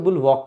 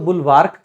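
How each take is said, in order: First: The R sound is left silent in the word. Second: The R sound is pronounced in the word. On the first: "आर को silent रख भी सकते हैं" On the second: "American English के हिसाब से बोल भी सकते हैं"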